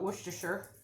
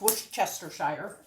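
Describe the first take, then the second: First: The word is said in a short, clipped form. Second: The word is said with every written syllable. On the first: This is how the speaker usually says it. "I call it Worcestershire" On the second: This is how the spelling suggests it is said. "the way it's spelled, it's Worcestershire"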